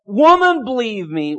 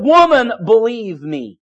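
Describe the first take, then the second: First: Jesus to the Samaritan woman, a touch of earnest tenderness; mildly voiced Jesus. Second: Jesus to the woman at the well, gently insistent; mildly voiced Jesus. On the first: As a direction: speak gently but firmly as Jesus. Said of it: "and he said". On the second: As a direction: say it as Jesus would, firm and caring. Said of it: "He said".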